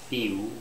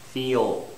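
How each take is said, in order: First: The word ends with a W-like sound. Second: The word ends with a clear L sound. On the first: The speaker calls it wrong. "not few, that's wrong" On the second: The speaker calls it right. "Another example, feel"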